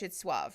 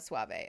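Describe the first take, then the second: First: The word is said the American English way. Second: The word is said the Spanish way. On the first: The speaker calls it right. "In U S English, it's suave" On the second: The speaker calls it wrong. "not suave"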